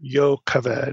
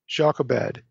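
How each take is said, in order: First: The name is said with a Hebrew pronunciation. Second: The name is said with an English pronunciation. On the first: The speaker calls it right. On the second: The speaker calls it wrong.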